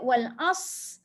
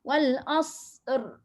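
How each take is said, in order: First: The word ends on the s sound, no r. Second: The word ends with a slight r sound. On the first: The speaker calls it wrong. "jangan bunyi sad je" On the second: The speaker calls it right. "kena ada sedikit bunyi ra"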